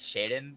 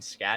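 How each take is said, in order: First: The name begins with an sh sound. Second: The name begins with an sk sound. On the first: The speaker calls it right. "It's Shaden" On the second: The speaker calls it wrong. "I've been saying Scat"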